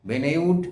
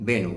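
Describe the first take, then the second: First: The name ends with a sounded d. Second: The name ends in a vowel, no d. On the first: The speaker calls it wrong. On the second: The speaker calls it right.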